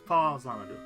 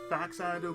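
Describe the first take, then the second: First: The second syllable starts with a 'z' sound. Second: The first syllable ends in a 'ks' sound. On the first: The speaker calls it right. "but it's Fazanadu" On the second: The speaker calls it wrong. "Most people call it Faxanadu"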